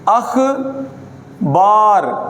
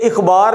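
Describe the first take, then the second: First: The first vowel is an 'a' sound. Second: The first vowel is an 'i' sound. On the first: The speaker calls it right. "देखिएगा क्या है ये अख बार" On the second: The speaker calls it wrong. "ये इखबार नहीं है"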